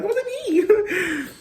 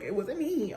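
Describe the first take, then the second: First: It wasn't me, stretched out very high and slow; hammed-up fake innocence, very high and slow; mock innocent denial. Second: Meek denial. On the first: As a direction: draw out the lie in a high, slow, innocent whine. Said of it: "still had the audacity to lie". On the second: Retold or imitated. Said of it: "and I'm like".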